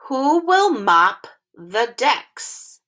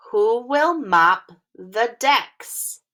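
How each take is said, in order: First: "Who will mop the decks?" slow, each word apart, rising on "will"; careful teacher read-along. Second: "Who will mop the decks?" slow again, stress on "will"; careful teacher read-along; slow word-by-word read. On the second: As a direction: repeat it slowly word by word. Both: Shown as a demonstration. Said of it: "practice reading this sentence together".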